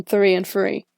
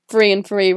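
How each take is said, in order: First: "three and three" with a deliberate th in both words; careful th sound. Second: "three and three" said as "free and free"; th pronounced as f. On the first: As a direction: accentuate the th in "three and three". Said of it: "mouth action to make the th sound". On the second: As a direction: turn the th in both words of "three and three" into f. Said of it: "if I'm not paying attention, it becomes". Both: Shown as a demonstration.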